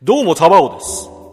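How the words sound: It is said in a put-on nice voice.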